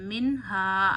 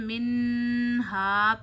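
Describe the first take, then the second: First: The n is short with no nasal hold. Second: The n is held nasally for a beat. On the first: The speaker calls it right. "ज़रा भी नून की आवाज़ नाक में नहीं रुकनी चाहिए" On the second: The speaker calls it wrong. "नून की आवाज़ नाक में ले जा ले जाके आपने एक उंगली जितनी ठहराई, तो ये गलत हो जाएगा"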